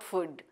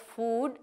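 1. स्वर छोटा है। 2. स्वर लंबा है। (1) "and not food" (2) "pronounced as food"

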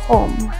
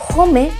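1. La e final es muda. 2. La e final se pronuncia como una vocal. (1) "la E al final no tiene sonido" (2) "En vez de decir home"

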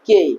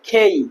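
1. শ্বাসবিহীন k ও সাধারণ 'e' স্বর। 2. শ্বাসযুক্ত k ও গড়িয়ে যাওয়া 'ei' স্বর। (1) "এটা আমরা আগে বলতাম কে কে" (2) "কিন্তু এখন হবে খেই খেই"

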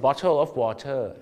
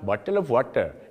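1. พูดด้วยสำเนียงไทย 2. พูดด้วยสำเนียงอินเดีย (1) "สำเนียงไทยไหมฮะแต่ออกเสียงได้ถูกต้อง" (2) "ชาวอินเดียครับ"

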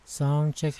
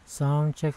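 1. Frekuensi tertinggi diatur dengan equalizer. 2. Frekuensi menengah atas diatur dengan equalizer. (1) "Sa high" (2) "sa mid-high"

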